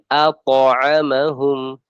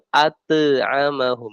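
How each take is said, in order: First: The t bounces heavily, toward an o sound. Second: The t bounces lightly, without the o sound. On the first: The speaker calls it right. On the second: The speaker calls it wrong. "jangan at'amahum. Nah, ini salah"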